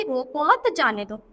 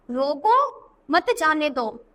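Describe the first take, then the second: First: रोको मत as one unit, then a break before जाने दो; group it रोको मत, then जाने दो; pause after मत. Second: Slow, with a clear break after रोको, then मत जाने दो together; drawn-out रोको set apart from मत जाने दो; pause after रोको. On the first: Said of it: "अब इसके बोलते हैं कि". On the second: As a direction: stop on रोको, then run मत जाने दो as one phrase. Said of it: "तो यहाँ अल्प विराम". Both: Shown as a demonstration.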